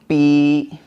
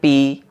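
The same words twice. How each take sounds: First: The vowel is drawn out long. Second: The vowel is short and quick. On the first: "दो अलिफ के बराबर आपको खींच के पढ़ना होगा" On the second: "पा के नीचे ज़ेर आ गया"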